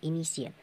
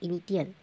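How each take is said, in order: First: The middle consonant is sounded as sh. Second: The middle consonant is sounded as t. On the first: The speaker calls it right. "तो उसको स पढ़ते हैं" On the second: The speaker calls it wrong. "अगर ट पढ़ते तो क्या होता"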